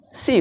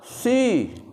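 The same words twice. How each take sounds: First: The s is plain and light, like Arabic sin. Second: The s is heavy and emphatic, like Arabic sad. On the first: The speaker calls it wrong. "kalau itu kan si, huruf sin itu" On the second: The speaker calls it right. "Yang betul adalah si, huruf tebal"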